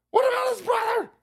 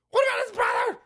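First: High shout in a different voice. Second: Shouting. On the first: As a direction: shout it again, higher and strained. Repeated shouted. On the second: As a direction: yell the question up high. Shouted mock question. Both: Acted.

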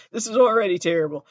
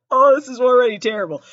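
First: Said in the usual way. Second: Louder and higher, mock despair; exasperated laugh. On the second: Real, not acted. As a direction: cry out in embarrassment. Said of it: "repeated twice".

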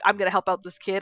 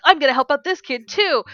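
First: Said in the usual way. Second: Higher and louder, pumped; fired-up vow. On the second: Retold or imitated. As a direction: hype yourself up to help another kid. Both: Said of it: "I'm like".

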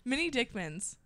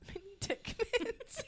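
First: Said in the usual way. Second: High, soft, drawn-out giggle; helpless quiet giggling on the words. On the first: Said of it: "you say it over". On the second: Real, not acted. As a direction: squeak it out slowly, losing it to laughter. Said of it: "it just gets funnier".

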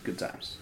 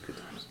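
First: Said in the usual way. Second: Good times barely audible, softer echo; muttered. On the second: Shown as a demonstration. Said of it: "it was good times".

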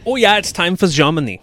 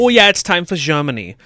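First: High-pitched fake German, louder; a ham American doing German, pitched up; mock German accent. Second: High, louder fake German; cheerful put-on German, pitched up and louder; mock German accent. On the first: Host announcing Germany in a silly high German accent. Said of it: "talk really high-pitched". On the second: Host redoes the Germany intro in high mock German. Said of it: "Two voices".

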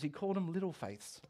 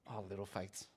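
First: Said in the usual way. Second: Cheeky pity. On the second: Retold or imitated. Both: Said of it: "as Jesus cheekily called his disciples".

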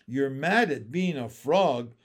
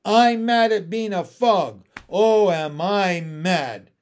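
First: "mad" stressed, voice settling lower than the frog's outburst; restrained echo of the frog's complaint; incredulous turtle. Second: Loud, drawn-out frog fury; mad frog. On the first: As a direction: repeat it back in disbelief. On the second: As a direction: rant indignantly at full volume. Frog rages at being a frog. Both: A narrator's reading.

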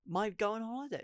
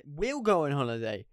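First: Said in the usual way. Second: "We'll" stated flatly and firmly, no doubt left; correcting myself with certainty; firm correction. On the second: Real, not acted. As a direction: land "We'll go on holiday" as settled. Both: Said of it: "Not might".

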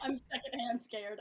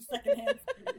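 First: Said through a laugh; giggling as you say secondhand scared. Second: Much higher, louder squeal on secondhand; exaggerated high-pitched squeak of fake fear; squeaky mock fright. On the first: Real, not acted. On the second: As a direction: squeal secondhand scared through a laugh.

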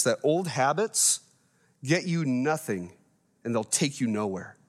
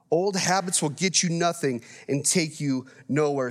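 First: Put-on slow, weighty phrasing of that old habits get you nothing; preacher driving the point home slowly; slow emphatic. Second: Said in the usual way. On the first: Shown as a demonstration. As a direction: lean slowly on each phrase to make it stick. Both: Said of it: "I want you guys to remember this".

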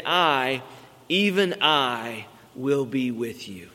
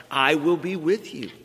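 First: "I" and "even I" leaned on, with "even I" drawn out slowly; stress on I. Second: Said in the usual way. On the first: Shown as a demonstration. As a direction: hit the word "I" hard each time, then let "will be with you" fall. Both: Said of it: "there's a strong emphasis on the word "I".

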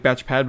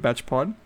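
First: "Batch Pad" with an open A in Pad. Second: "Batch Pod" with an O in Pod. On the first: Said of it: "Like Batch Pad, but Batch Pod". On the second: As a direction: say "Batch Pod", Pod rhyming with nod. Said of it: "but Batch Pod". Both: Shown as a demonstration.

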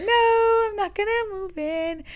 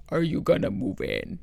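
First: High, slow put-on voice; exaggerated high reply, drawn out; high-voiced refusal. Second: Low, slow imitation of his deep voice; put-on deep voice, slow; deep-voiced man. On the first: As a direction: pitch it way up and stretch the refusal. Mocking reply to deep-voiced client. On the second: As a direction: drop low and drag it out, mimicking him. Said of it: "he had, like, the deepest voice".

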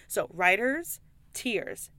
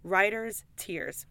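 First: Writer's Tears drawn out slowly, clear on Tears; slow and careful. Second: Writer's Tears, slow, each word set apart; slow and careful. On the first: Telling viewers what the whiskey is called, slow and careful. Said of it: "Tears as in, like". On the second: Recommending the whiskey to viewers, slow and careful. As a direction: say Writer's Tears slowly so it sticks. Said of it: "Yeah, tears, okay?". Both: Shown as a demonstration.

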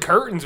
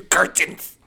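First: Said in the usual way. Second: CURTAINS barked in a German accent; hammed-up German, higher and louder; mock German accent. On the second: Shown as a demonstration. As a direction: shout "Curtains" like a cartoon German. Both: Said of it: "you put curtains with a German accent".

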